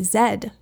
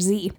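First: The letter is said as Canadian zed. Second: The letter is said as American zee.

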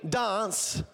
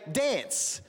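First: It is said in an Adelaide accent. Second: It is said in a Victorian accent. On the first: "Some of them say dance" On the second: "here in Victoria, we say dance"

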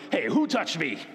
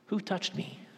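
First: It is said in a stern, threatening tone. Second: It is said in a gentle, caring tone.

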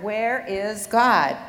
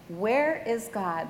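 First: It is said slightly louder and firmly. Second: It is said quietly and calmly. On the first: "slightly louder, In a firm voice" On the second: "The pastor calmly asked"

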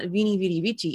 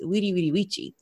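First: The words start with a V sound. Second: The words start with a W sound. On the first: The speaker calls it wrong. "So it's not Vini Vidi Vici" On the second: The speaker calls it right. "V's make a W sound"

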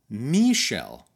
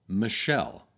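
First: The stress is on the first syllable. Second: The stress is on the second syllable. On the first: "emphasizes the first syllable of the girl's name, just like the French do" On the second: "when Americans refer to that song, they call it Michelle"

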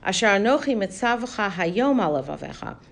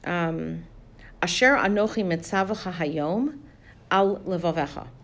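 First: The words run together without a pause. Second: There is a short pause after Hayom. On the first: It should be on your heart today and not tomorrow. The speaker calls it wrong. "so that it doesn't come out sounding like" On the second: The commands given today should be on your heart. The speaker calls it right. "You need a little pause there"

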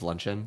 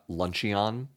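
First: The word is said with its usual pronunciation. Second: The word is said with a spelling-based guess. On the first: The speaker calls it right. "Instead of luncheon" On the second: The speaker calls it wrong. "completely wrong in the pronunciation"

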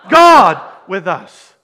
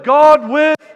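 First: The stress falls on the word 'God'. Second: The stress falls on the word 'us'. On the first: It is God who is with us. "the emphasis on the first. Who's with us?" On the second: We are the ones God is with. "And who's God with?"

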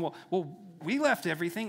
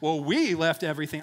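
First: It sounds concerned and worried. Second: It sounds arrogant and pompous.

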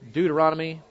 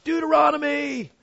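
First: It is said plainly, without excitement. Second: It is said as an excited exclamation.

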